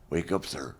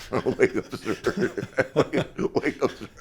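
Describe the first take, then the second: First: Said in the usual way. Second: Higher, louder, laughing through it; laughing wake-up call. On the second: Retold or imitated. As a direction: crack up while calling out. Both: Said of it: "He's going".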